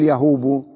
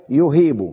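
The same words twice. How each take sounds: First: يهوب with a long oo, ya-HOOB-u; wrong form. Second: يهيب with a long ee, yu-HEEB-u; corrected form. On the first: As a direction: show the mistaken يهوب with oo in place of ee. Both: Shown as a demonstration. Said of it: "لا تقول يهوب".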